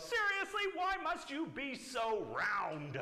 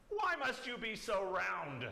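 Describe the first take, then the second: First: High, loud, exasperated mock yell; fed-up bunny yelling, hammed up for kids; escalated storybook yell. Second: Mock yell, drawn out slowly, louder and higher; grumpy bunny hollering slowly at a ball; exasperated storybook yell. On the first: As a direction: shoot the pitch way up, then stretch the words. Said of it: "And she yells". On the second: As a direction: complain loudly, stretching every word. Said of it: "she yells at the beach ball". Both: A narrator's reading.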